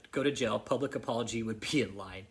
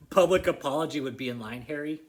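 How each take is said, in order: First: Said in the usual way. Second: Louder, sarcastic echo of his demand; mocking repeat. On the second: Real, not acted. Mocking Harry by repeating his demand louder. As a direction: throw his own words back at him mockingly.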